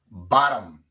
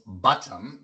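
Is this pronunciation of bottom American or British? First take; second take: American; British. First: The t is a quick flap like r. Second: The t is a clear, hard t sound. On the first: This is how it is said here. "Aquí decimos bottom" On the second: This is how it is said in England. "No decimos bottom, así dicen en Inglaterra"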